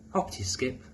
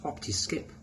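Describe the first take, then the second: No difference in how they are said.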